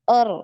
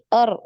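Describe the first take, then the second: First: The r is trilled with one vibration. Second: The same.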